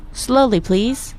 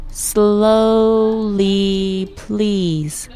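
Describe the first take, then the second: First: Said in the usual way. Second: "Slowly, please" long drawn out; syllable by syllable. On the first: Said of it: "I'll say the phrase or sentence". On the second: Shown as a demonstration. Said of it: "Let's break it down by syllable".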